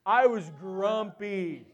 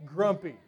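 First: Slow, laughing admission of being grumpy; owning up to a bad mood, slow and amused. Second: Said in the usual way. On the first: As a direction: drag it out with a chuckle. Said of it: "needless to say".

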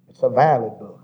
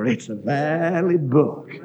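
First: Said in the usual way. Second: Slow, weighty "valid"; stress on valid. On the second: Shown as a demonstration. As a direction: lean hard on "valid", drawn out. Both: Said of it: "That word valid means".

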